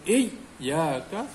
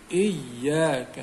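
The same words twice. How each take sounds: First: The word breaks off with a gap inside. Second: The y sound is held and doubled with weight. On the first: The speaker calls it wrong. "seolah macam ada ada terputus itu bacaan, itu tak tak tepat" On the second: The speaker calls it right. "tekankan pada kalimah yang ada tanda sabdu itu"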